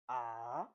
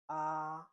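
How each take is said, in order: First: The pitch falls and then rises. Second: The syllable is said with the first tone. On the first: "The third one is ah. You fall and rise" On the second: "The first tone is this, like this one"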